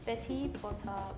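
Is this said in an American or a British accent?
British. A British accent, with a clear t. "Do you want to try it in a British accent then?"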